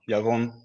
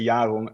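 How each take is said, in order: First: It is said with a Hebrew pronunciation. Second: It is said with an English-style pronunciation. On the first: "the Hebrew pronunciation is Yaron" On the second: "a lot of people say Yaron, and I hate that"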